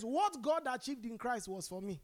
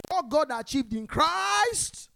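First: Said in the usual way. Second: Loud, slow and higher, every word pushed out; with your chest. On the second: Shown as a demonstration. Preacher showing the congregation how to declare it, loud and slow. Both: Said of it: "Say it with your chest".

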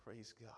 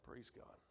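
First: Softer, settled praise; quiet praise after the shout; calming down. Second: Whispered praise; calming down. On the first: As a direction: say it low, settling. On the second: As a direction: breathe it out, coming down. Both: Real, not acted. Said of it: "I'll calm back down".

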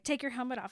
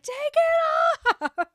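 First: Said in the usual way. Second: Much higher, much louder, slow drawn-out scream; screaming demand. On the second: Retold or imitated. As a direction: explode and scream the order. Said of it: "and then she just screams".

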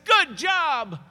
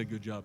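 First: Loud, high, exclaimed congratulation; mock hearty praise. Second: Said in the usual way. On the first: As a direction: cheer it out as imagined praise. Mock praise from Jesus, then denied.

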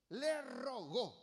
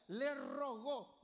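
First: Slow and pleading, le rogó lingered on; le rogó said slowly like a tender favor; tender plea. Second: Le rogó drawn out like a gentle request; tender plea. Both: Shown as a demonstration. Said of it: "pidiendo con ternura".

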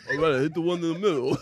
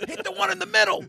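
First: Rocky impression. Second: Acted cornerman. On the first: Acts Rocky answering the cornerman. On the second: Acts out the boxing cornerman.

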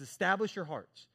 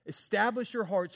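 First: Said in the usual way. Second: Establish your hearts said higher and louder, leaning on Establish; repeated with more force. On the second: Shown as a demonstration. Preacher repeating the verse to the church, stressing Establish. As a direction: press the repeat harder, landing on Establish.

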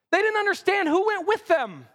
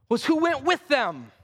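First: "with" hit higher, falling after; rising emphasis on "with"; stress on with. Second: With leaned on, falling; stress on with. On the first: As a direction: lift and punch "with". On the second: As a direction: land on "with" in "was who went with them". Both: Shown as a demonstration.

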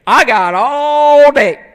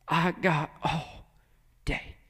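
First: Loud, higher, long drawn-out taunt; stubborn parent. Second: Very soft, slow, lingering words; tender patience. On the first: Parent waiting out a child's tantrum, loud drawn-out defiance. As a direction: stretch it out loud, refusing to budge. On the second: God to a broken son, soft slow patience. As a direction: let it fall softly, with endless patience. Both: Acted.

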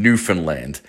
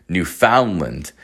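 First: Newfoundland with a reduced middle, NOO-fun-land; Newfoundland said quickly. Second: Newfoundland with a full FOUND, noo-FOUND-lund; slow Newfoundland, middle syllable rhyming with "round"; Newfoundland spelled-out style. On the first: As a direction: say Newfoundland as NEW-fin-land, ending on a full "land". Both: Shown as a demonstration. Says the place name two ways.

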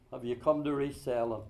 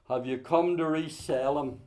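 First: Softer, lower repeat; a hushed, searching echo of the question; quiet echo. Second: Firm, full voice; asked squarely to the congregation; pointed question. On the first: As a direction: let it sink in, softly. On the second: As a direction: press the question home. Repeated question. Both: Shown as a demonstration.

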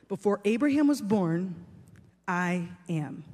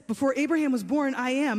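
First: Solemn declaration. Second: Higher-pitched recap. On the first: Acted. Jesus's weighty answer, quoted solemnly. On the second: Retold or imitated. Recap of answer before overreaction.

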